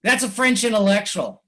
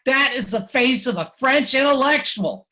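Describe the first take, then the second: First: Said in the usual way. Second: "That" punched high and loud, the rest held up high; mock-solemn emphasis. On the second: Speaker to audience, mocking the French intellectual, with heavy stress on "That". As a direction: lean hard on "That" as if presenting a marvel.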